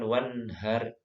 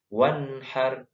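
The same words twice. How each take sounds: First: "wanhar" slowly with the wrong, plain h; wrong letter ha. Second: "Wanhar" with the correct ha, the n held; correct letter ha. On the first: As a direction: mispronounce "wanhar" with an ordinary h sound. ("wanhar" dengan ha yang salah, h biasa) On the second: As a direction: say "Wanhar" with an Arabic pharyngeal ha. ("Wanhar" dengan ha yang benar) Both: Shown as a demonstration. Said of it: "bukan wanhar".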